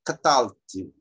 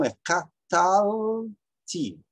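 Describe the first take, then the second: First: Catalti said at normal pace, short and firm, falling at the end; quick natural Catalti. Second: Catalti said slowly, every syllable stretched, stress landing on the tal of catalti; slow teacher demo of catalti with stress on tal; drawn-out stress demo. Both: Shown as a demonstration. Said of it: "o acento tá aqui".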